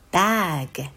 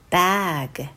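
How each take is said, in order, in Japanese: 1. 子音をはっきりと強く開放しています。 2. 子音をはっきりと強く開放しています。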